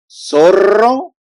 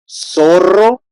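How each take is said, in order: Both takes have the same delivery.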